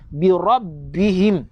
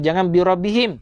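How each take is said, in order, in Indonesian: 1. Bunyi B ditahan dan digandakan. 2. Bunyi B pendek dan tunggal. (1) "Nampak tak sabdu?" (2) "Jangan ... Salah"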